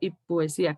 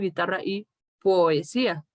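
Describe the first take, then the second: First: The o glides almost like u into one syllable. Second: The o and e are said as separate syllables. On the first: The speaker calls it right. "digo y poesía, casi como una U" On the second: The speaker calls it wrong. "Yo no digo"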